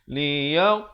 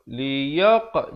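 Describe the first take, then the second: Both takes have the same delivery.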